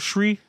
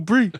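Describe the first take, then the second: First: The word begins with a shr sound. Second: The word begins with a b sound. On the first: "or shri?" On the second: "What about brie?"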